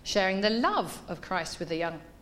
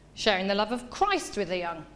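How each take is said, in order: First: The word love carries the main stress. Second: The word Christ carries the main stress. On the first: The focus is on what kind of love is shared. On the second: The focus is on whose love is being shared.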